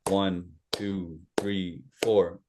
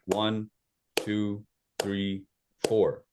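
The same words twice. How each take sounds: First: It is counted at a medium pace. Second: It is counted at a slow pace.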